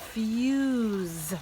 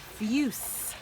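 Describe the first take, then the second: First: The word ends with a buzzing z sound. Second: The word ends with a hissing s sound. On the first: The speaker calls it right. "that S kind of says a Z" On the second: The speaker calls it wrong. "otherwise it would be fuse"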